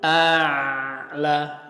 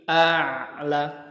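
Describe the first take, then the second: First: The l sound is held fully and long. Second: The l sound is held only briefly. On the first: The speaker calls it wrong. "tidak sampai penuh" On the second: The speaker calls it right. "tapi a'la"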